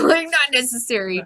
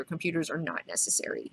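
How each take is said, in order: First: Laughing, higher and louder mock repeat; amused mimicry. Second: Said in the usual way. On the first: Host repeats Rorschach's line on computers, amused mimicry. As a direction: repeat it through a laugh, voice lifted.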